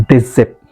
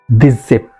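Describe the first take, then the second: Both takes have the same delivery.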